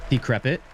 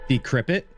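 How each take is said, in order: No difference in how they are said.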